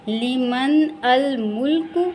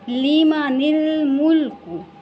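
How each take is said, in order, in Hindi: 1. n और अगला शब्द अलग-अलग बोले जाते हैं। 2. n, i स्वर के साथ अगले शब्द से जुड़ जाता है।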